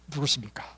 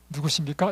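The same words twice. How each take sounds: First: The question is asked in a blunt, gruff tone. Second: The question is asked in a soft, gentle tone. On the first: "이게 남자의 뭐랄까 이게 기본적인 말투라" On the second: "이렇게 아니고"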